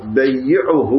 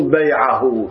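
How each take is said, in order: First: بيعه read as bayyi'uh, with a doubled y; بيعه said with shadda, bayyi'uh, as the correct reading; right reading after. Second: بيعه read as bay'ahu, without shadda, the rejected reading; بيعه said light, bay'ahu, to show what it is not; wrong reading first. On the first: Teacher gives students the correct reading, said with care. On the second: Teacher shows students the reading to avoid, said plainly. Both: Shown as a demonstration. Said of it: "مو بيعه".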